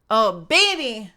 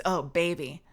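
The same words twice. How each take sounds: First: Hammed-up sultry. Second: Mock sultry. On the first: Teasing the chat over mayonnaise, hammed-up sultry moan. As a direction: stretch it out as an over-the-top sexy moan. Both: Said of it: "How can you make that sound so good".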